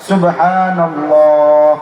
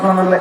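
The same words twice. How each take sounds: First: It is said slowly and carefully, once. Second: It is said rapidly and mechanically, repeated. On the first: The speaker calls it right. "এভাবে এক নিঃশ্বাসে একবার এবং বিশুদ্ধ উচ্চারণ করে পড়া উচিত" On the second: The speaker calls it wrong. "এরকম না"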